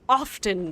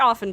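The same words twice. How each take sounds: First: The word is carefully and fully enunciated. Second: The word is said in a casual, relaxed way.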